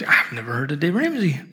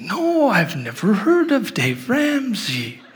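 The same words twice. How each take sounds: First: Said in the usual way. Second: Put-on high, slow, drawn-out little-girl voice; singsong imitation of a guileless child; innocent little girl. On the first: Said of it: "And she goes". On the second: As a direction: mimic a wide-eyed six-year-old, stretching the words. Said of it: "she's so innocent".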